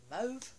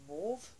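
First: Mauve with a long "oh" vowel, like "mohv"; alternative pronunciation. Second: Mauve with an "aw" vowel, like "morv"; alternative pronunciation. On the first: Vlogger offering options for a shade name, Mauve pronounced like "mohv". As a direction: say Mauve to rhyme with "stove", rising. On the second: Vlogger offering options for a shade name, Mauve pronounced like "morv". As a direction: say Mauve as "mawv", rising at the end. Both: Shown as a demonstration. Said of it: "whichever you wanna pronounce it".

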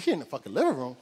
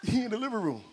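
First: Louder, disbelieving question; incredulous echo. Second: Higher-pitched imitation of a crying kid; mock crying. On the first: Retold or imitated. Uncle shocked the bully is inside the house, incredulous. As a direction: throw it back in disbelief. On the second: Crying nephew telling his uncle where the bully is, mock tearful. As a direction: lightly mimic a tearful nephew. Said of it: "And he crying still".

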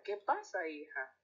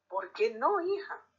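First: Said in the usual way. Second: Hija jumps up high in a sharp rising question; a mother caught off guard, voice leaping on hija; surprised. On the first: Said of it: "Doña Lola va hacia ella". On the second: Acted. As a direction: una madre sorprendida, hija con subida aguda. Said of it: "la mira sorprendida".

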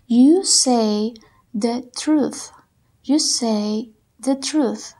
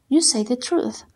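First: Slow, word by word; very slow dictation. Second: Said in the usual way. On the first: Shown as a demonstration. Teacher dictating slowly to the class. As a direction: spell it out slowly. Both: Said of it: "Trata de escribirlos de acuerdo como los escuches".

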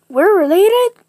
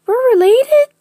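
First: High, loud squeal of surprise; acted loud, high-pitched shock; astonished question. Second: Very high, very loud squeal; top-of-the-range acted shock; escalated astonishment. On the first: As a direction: squeal it in disbelief. Character learns they are family. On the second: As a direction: push the disbelief up to a piercing squeal. Repeats the shock, pitched higher.

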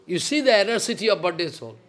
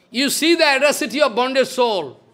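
First: Said in the usual way. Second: Higher and louder second time; emphatic repeat. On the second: Shown as a demonstration. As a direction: drive the line home, louder.

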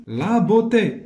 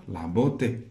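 First: بوتي slow, high, each syllable stressed; raised, stretched dictation of بوتي. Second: Said in the usual way. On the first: Shown as a demonstration. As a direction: sound out BEAU-TÉ emphatically. Teacher dictates word.

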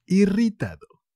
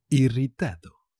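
First: "Irritado" pitched high and loud; emphatic. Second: Said in the usual way. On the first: Shown as a demonstration. Teacher repeating a word for learners, high and emphatic. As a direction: punch out "Irritado", raised well up.

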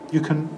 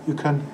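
Both takes have the same delivery.

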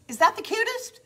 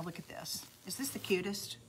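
First: Much higher, louder thrilled squeal; delighted squeal showing viewers the board; gushing. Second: Breathy hushed whisper of delight; awed whisper over the finished board. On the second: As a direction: whisper it like a secret marvel. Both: Real, not acted. Admiring finished board, hushed then thrilled.

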